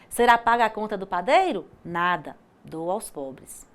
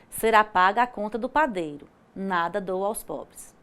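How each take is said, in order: First: 'Nada' stands alone, followed by a pause. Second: 'Nada dou aos pobres' runs together without a pause.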